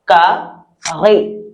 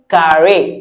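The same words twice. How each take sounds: First: The r is made deep in the throat. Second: The r sounds like the English r. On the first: "The French people say it from their throat" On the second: "as if you're saying carrying something"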